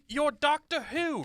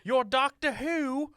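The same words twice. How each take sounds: First: Doctor slowed and landing hard; stress on Doctor. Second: You're said slow, leaning on the first word; stress on You're. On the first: The prince correcting himself, stressing Doctor. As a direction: push Doctor in you're Doctor Who. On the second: The prince checking the Doctor's name, stressing You're. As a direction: ask You're Doctor Who? with You're pushed out in front. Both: Acted. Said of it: "No, I mean".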